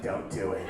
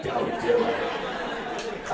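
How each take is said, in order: First: Low-pitched imitation of a heckler. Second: Very slow, unvoiced rasping growl; Harvey Fierstein. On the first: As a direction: drop low to mimic someone in the back. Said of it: "someone in the back is like". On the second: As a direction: drag it out in a celebrity's croak. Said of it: "Harvey Firestein's in the back".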